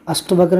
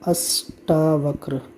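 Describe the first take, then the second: First: The vowel after asht is short. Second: The vowel after asht is a long aa. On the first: The speaker calls it wrong. "अष्टवक्र नहीं होता" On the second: The speaker calls it right. "बल्कि क्या होता है? अष्टावक्र"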